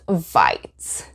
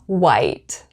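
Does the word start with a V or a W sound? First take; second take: V sound; W sound. First: It begins with a buzzing V sound. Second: It begins with a rounded W sound. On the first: The speaker calls it wrong. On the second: The speaker calls it right.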